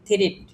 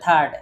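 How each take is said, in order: First: It is said with an i sound, ending in t. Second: It is said as one syllable ending in d. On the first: The speaker calls it wrong. "উচ্চারণ না জানতেন তাহলে এটাকে উচ্চারণ করতেন থ্রিট।" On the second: The speaker calls it right. "আর ডি just খালি ডি এর উচ্চারণটা করে থার্ড।"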